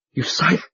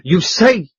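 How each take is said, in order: First: Stammer. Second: Repeated louder, higher in shock; stammer. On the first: Proprietor stammers at the duke, first faltering. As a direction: trail off in shock. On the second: Proprietor stammers at the duke, louder repeat. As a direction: push the repeat out, shaken. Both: A narrator's reading. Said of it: "he stammered".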